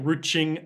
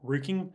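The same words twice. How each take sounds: First: Ruching read with a ch sound. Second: Ruching? said roo-king with a hard k, rising; Ruching? unsure hard k, rising. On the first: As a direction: say ruching with ch as in church. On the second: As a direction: try Ruching? with a hard k sound, questioning. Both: Shown as a demonstration.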